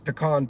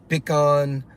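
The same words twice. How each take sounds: First: It is said the Texas way. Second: It is said with a Cajun accent.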